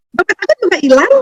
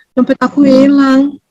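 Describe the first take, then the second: First: High, bright-hearted mock cheer; cheerful telling. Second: Slow, sorrowful little lament; sad lament. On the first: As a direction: tell the loss as if it were good news. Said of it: "tapi mukanya ketawa". (nada riang dan tinggi, seolah kabar gembira) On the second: Retold or imitated. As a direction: mourn the lost wallet slowly. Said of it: "Eh, dia sedih lah". (keluhan sedih yang pelan)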